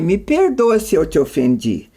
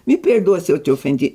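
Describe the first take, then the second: First: The apology sounds sincere and regretful. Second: The apology sounds grudging and dismissive. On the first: The speaker truly regrets causing offence. The speaker calls it right. "olha a diferença entre você falar assim" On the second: The speaker blames the listener for feeling offended. The speaker calls it wrong. "eu não acho que eu te ofendi, mas se você que é mal resolvida acha"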